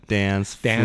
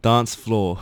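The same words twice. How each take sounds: First: It is said in an American accent. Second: It is said in a British accent.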